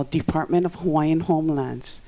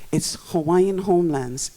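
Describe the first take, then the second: First: Said in the usual way. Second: "homelands" said firmly with weight on lands; emphasis on lands. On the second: Shown as a demonstration. Speaker stressing what the department's name means, emphasis on "homelands". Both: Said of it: "emphasis on lands".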